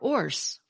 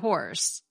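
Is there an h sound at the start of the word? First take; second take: no; yes. First: The word starts without an h sound. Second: The word starts with an h sound.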